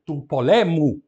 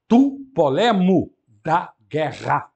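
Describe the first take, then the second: First: Said in the usual way. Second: Tu poLEmo, slow and louder; slow stressed genitive. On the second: Shown as a demonstration. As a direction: hammer the new stress for students. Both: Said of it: "Tem que passar para a penúltima".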